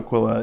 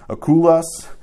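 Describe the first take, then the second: First: The name is said in its Latin form, Aquila. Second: The name is said in its Greek form, Akoulas. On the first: The speaker calls it wrong. "that's more of a Latin pronunciation" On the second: The speaker calls it right. "I looked up how to say their names in Greek"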